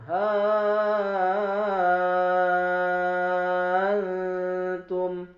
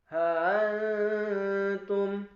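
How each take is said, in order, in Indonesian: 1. Hamzah menjadi vokal panjang enam harakat. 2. Hamzah dilunakkan, tidak ditutup sepenuhnya. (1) "ibdal hamzah menjadi alif... enam harokat" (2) "tasil hamzah"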